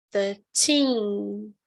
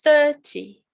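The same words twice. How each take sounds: First: Put-on thirteen with the weight on teen; thirteen, stressed at the end. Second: Thirty punched loud on THIR; Thirty, strong start for contrast; stress on first syllable. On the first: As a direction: let thirteen land on the end. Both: Shown as a demonstration. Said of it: "Viram a diferença".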